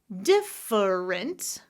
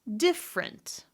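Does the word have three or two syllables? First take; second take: three; two. First: It is said with three syllables. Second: It is said with two syllables.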